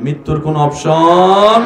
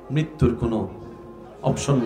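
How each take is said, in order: First: It is said noticeably louder, with more force. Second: It is said at ordinary speaking volume.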